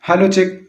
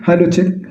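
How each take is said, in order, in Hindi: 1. आवाज़ में लगभग कोई बेस नहीं है। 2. आवाज़ की हाई फ्रीक्वेंसी हटा दी गई हैं। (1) "मेरी आवाज़ से बिल्कुल बेस खत्म हो रहा है" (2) "मेरी आवाज़ से जो हाई फ्रिक्वेंसी थी वो बिल्कुल गायब हो गई"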